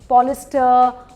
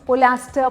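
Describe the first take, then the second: First: The word has only 'ee' after 'pol'. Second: The word has an 'a' sound after 'pol'. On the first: "पता नहीं क्या क्या मैंने सुना है" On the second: "पता नहीं क्या क्या मैंने सुना है"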